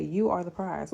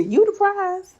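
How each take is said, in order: First: Said in the usual way. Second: YOU THE PRIZE pitched way up and loud; emphatic hype. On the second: Real, not acted. Coach hyping up fellow nurses, high loud insistence. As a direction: insist loudly, voice leaping high. Emphatic repeat after "look at me.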